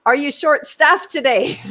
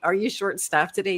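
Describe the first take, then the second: First: High, loud call across a room; raised voice with a laugh in it; loud repeated question. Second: Said in the usual way. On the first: Retold or imitated. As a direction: project it at someone avoiding you. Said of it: "said it again".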